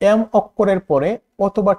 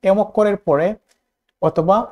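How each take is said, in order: Both takes have the same delivery.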